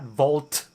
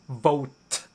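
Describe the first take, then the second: First: It is said with an L sound. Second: It is said without an L sound. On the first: The speaker calls it wrong. "not volt" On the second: The speaker calls it right. "Pronounced vote"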